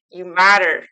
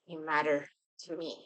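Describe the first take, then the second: First: Louder, a firm declaration. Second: Much softer, tender and close; soft reassurance. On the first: Shown as a demonstration. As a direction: proclaim it so they believe it. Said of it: "I want you to say it loud". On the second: Acted. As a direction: comfort them in a near-hush.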